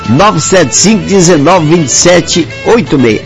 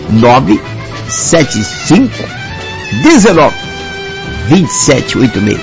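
First: It is said at normal quick speed. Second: It is said more slowly.

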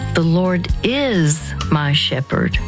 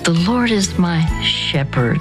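First: The stress is on "is". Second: The stress is on "shepherd".

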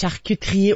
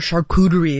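First: It is said in a non-American accent. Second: It is said in an American accent.

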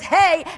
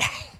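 First: It is said plainly, with no throat breath. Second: It is said with breath from the throat.

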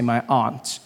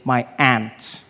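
First: It is said in the speaker's own non-American accent. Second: It is said in an American accent.

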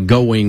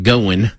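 First: It is said in a neutral broadcast accent. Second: It is said in a Kentucky country accent.

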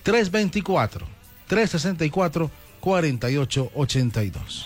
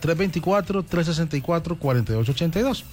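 First: The number is read slowly. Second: The number is read at normal speed.

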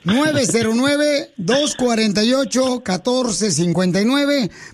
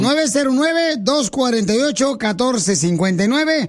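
First: The number is said at a slower pace. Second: The number is said at a faster pace.

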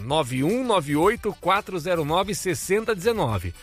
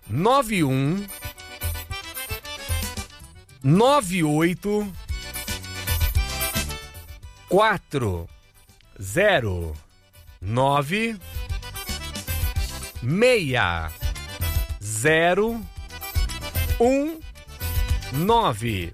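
First: The number is said at normal speed. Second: The number is said slowly, digit by digit.

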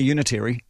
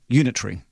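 First: It is pronounced the American way. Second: It is pronounced the Commonwealth way.

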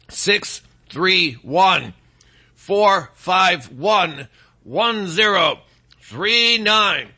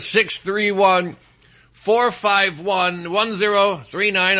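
First: The number is read slowly. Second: The number is read at normal speed.

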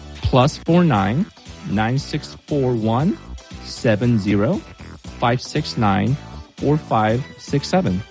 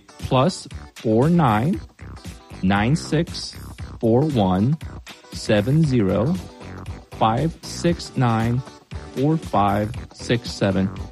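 First: The number is read at normal speed. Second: The number is read more slowly.

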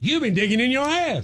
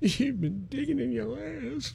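First: It is said in a motivational tone. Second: It is said in a sad tone.

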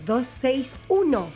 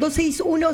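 First: It is said slowly, in a sensual voice. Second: It is said at normal speed.

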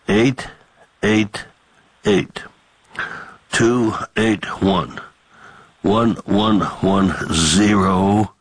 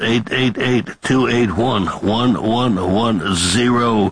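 First: The number is read at a slower pace. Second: The number is read at a quick pace.

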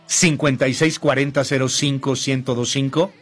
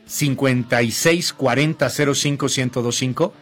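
Both takes have the same delivery.

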